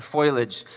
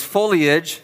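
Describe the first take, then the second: First: Foliage said slowly as FOY-lij, the i moved before the l; wrong pronunciation. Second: Foliage said slowly as FOE-lee-ij, the i after the l; correct pronunciation. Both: Shown as a demonstration. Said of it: "not foliage".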